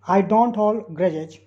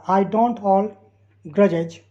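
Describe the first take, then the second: First: Slow repeat. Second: Very slow, every word spelled out; slow dictation. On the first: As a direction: still slow, but more flowing. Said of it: "teacher repeats sentence". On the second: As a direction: read it word by word for learners. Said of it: "teacher reads sentence slowly". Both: Shown as a demonstration.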